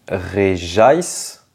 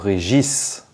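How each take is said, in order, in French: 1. Le nom se termine par un son 'ice'. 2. Le nom se termine par un son 'gis'.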